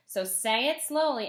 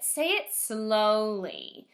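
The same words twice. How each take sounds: First: Said in the usual way. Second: Slow, drawn-out say it slowly. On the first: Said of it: "you can clap it". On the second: Shown as a demonstration. Teacher to first graders, showing slow speech. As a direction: model slow speech as you say it. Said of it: "And don't just say it".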